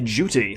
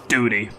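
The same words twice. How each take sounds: First: The word starts with a j-like sound. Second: The word starts with a plain d sound. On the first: "do the British thing of putting a J onto a D" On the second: "they say duty, which always sounds hilarious to me"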